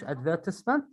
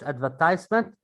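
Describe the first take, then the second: First: British advertisement, ad-VER-tis-ment; advertisement said the British way, with short i; British pronunciation. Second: American advertisement, ad-ver-TIZE-ment; advertisement said the American way, with long i; American pronunciation. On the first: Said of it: "In a British English advertisement". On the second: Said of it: "in American English advertisement". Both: Shown as a demonstration.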